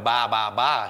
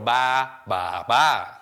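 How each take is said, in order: First: Said with the tones of the number three. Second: Said with the tones meaning old aunties. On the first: It asks for the 333 beer. The speaker calls it right. "instead of saying, I'll have a Ba Ba Ba" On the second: It asks for three old aunties. The speaker calls it wrong. "Which means, can I have three old aunties"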